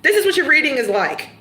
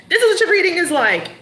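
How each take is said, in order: First: Said in the usual way. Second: Emphatic restatement. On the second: Shown as a demonstration. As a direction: punch it home with energy.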